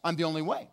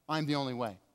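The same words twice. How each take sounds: First: "the" lifted and held, tune rising on "I'm the only way"; stress on THE, rising. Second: "the" pressed softly, tune falling on "I'm the only way"; quiet final stress on THE. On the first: Preacher repeating Jesus' claim to the congregation, rising stress on "the". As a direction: ask it outward, leaning on "the". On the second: Preacher repeating Jesus' claim to the congregation, quiet falling stress. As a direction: settle it, quieter, weight still on "the". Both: Shown as a demonstration. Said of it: "He said, "The".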